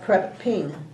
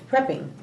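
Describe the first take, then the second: First: The second syllable is said strongly. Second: The second syllable is said weakly. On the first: The speaker calls it wrong. "It's not prep ping" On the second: The speaker calls it right. "It's prepping"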